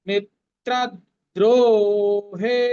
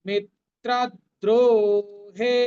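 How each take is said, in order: No difference in how they are said.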